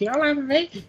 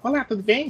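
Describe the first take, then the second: First: It is said in a mocking put-on voice. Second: It is said in a plain, normal voice.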